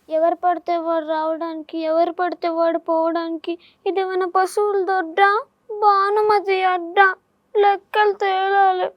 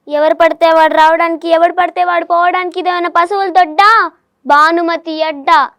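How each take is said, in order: First: It is said in a sad tone. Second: It is said in an angry tone.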